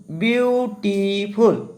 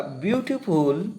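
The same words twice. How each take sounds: First: beautiful drawn out slowly in three parts, বিউ-টি-ফুল; syllable by syllable. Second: Said in the usual way. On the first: Shown as a demonstration. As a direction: break beautiful into separate, stretched syllables to show each one. (Beautiful শব্দটি ধীরে টেনে ভেঙে ভেঙে, বিউ-টি-ফুল) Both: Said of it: "দেখা যাচ্ছে কি একাধিক syllable".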